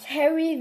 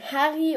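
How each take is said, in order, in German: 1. Der Name wird englisch ausgesprochen. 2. Der Name wird deutsch ausgesprochen. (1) "aus Harry" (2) "wird dann Harry"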